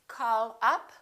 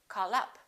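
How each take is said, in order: First: The words are said separately. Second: The words are linked together smoothly.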